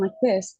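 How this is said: The light high voice is firmly supported by breath. The speaker calls it right. "trying to support the, the breath so that I sound like this"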